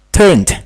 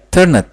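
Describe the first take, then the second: First: The ending is a plain 'd' sound. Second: The ending is an extra 'id' syllable. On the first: The speaker calls it right. "Lebih baik kita baca turned" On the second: The speaker calls it wrong. "itu agak lucu ya"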